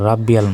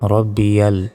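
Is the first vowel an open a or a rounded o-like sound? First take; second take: open a; rounded o. First: The first vowel is an open a. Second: The first vowel is a rounded o-like sound. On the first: The speaker calls it wrong. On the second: The speaker calls it right.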